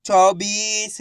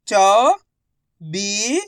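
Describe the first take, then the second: First: Said in the usual way. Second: चौबीस drawn out as chau, bee, sa with pauses; syllable by syllable. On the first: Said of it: "इनको आपस में लाके पढ़ना है". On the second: Shown as a demonstration. Teacher sounding out चौबीस for learners, syllable by syllable. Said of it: "एक अक्षर का उच्चारण करके".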